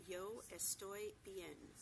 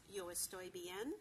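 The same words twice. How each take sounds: First: "Yo estoy bien" said very slowly, every sound spelled out; slow model phrase. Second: 1 slow demo. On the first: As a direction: read it out slowly, letter by letter. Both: Shown as a demonstration. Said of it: "pronounced exactly as it's spelled".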